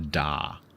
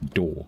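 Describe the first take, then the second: First: It is said with an open ah vowel. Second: It is said like the word door. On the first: "A D A W would probably be pronounced more like da" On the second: "In British English, they're the same"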